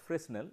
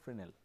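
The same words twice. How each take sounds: First: The s in the middle is sounded. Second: The s in the middle is silent. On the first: The speaker calls it wrong. "it is not pronounced as Fresnel" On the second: The speaker calls it right. "it is pronounced as Fresnel, though the spelling is Fresnel"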